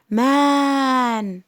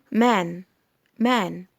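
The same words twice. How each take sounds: First: "مان" with the vowel hugely drawn out, louder; overlong vowel. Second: "مان" with a short, snatched vowel. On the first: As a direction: stretch "مان" far too long. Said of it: "لما مد قوي كده". ("مان" ممدودة قوي) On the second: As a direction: say "مان" briefly, no stretch. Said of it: "أنا ما قلتش إيه؟ مان". ("مان" بمد قصير) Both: Shown as a demonstration.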